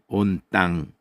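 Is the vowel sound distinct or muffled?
muffled. The consonants are strong and the vowels muffled. "자음의 힘이 들어갑니다. 온 땅 이렇게"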